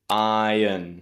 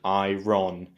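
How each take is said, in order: First: The word is said with no R sound. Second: The word is said with a strong R sound. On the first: The speaker calls it right. "We say iron" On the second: The speaker calls it wrong. "we don't say iron, that strong R sound"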